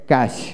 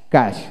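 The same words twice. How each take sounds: The two takes are said the same way.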